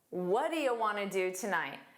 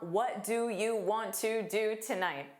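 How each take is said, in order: First: 'Want to' is reduced and merged into one. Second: 'Want to' is pronounced fully and separately. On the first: "Exactly the same meaning, different pronunciation" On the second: "very different from"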